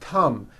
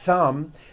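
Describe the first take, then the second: First: The word begins with a hard T sound. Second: The word begins with a breathy TH sound. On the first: The speaker calls it wrong. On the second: The speaker calls it right.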